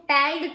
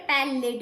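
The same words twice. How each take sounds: First: पैल्ड said with no vowel between l and d; wrong pronunciation. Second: पैलिड with a clear short i between l and d; correct pronunciation. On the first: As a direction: say पैल्ड as one clipped syllable, pel-d. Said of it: "पैल्ड तो बोल नहीं रहे". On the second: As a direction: say पैलिड in two syllables, pe-lid. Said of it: "बोल रहे हैं पैलिड". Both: Shown as a demonstration.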